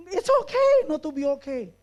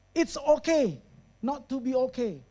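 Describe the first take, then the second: First: Louder, higher, pushed "okay" at the end; mocking emphasis. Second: Said in the usual way. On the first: Shown as a demonstration. Challenging the audience's favourite slogan, pushed and loud. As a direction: throw the slogan back at them, sceptically. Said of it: "Are you sure?". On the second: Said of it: "error statement yang orang lain sering katakan".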